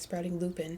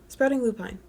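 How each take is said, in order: First: The last word is said as 'lupin'. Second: The last word is said as 'lupine'. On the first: The speaker calls it wrong. "had been calling it Sprouting Lupin, so I was wrong" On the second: The speaker calls it right. "she called her own business Sprouting Lupine"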